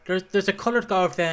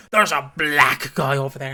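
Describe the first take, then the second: First: Said in the usual way. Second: Contrasting delivery. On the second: Shown as a demonstration. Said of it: "and going".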